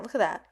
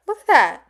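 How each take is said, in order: First: Said in the usual way. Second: "Look at that." higher and louder, thrilled; excited "Look at that." said high and loud. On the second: Real, not acted. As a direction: burst out "Look at that." with delight. Admiring the box, repeated excitedly.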